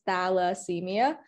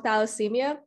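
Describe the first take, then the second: First: The word is said slowly and carefully. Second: The word is said at normal speed.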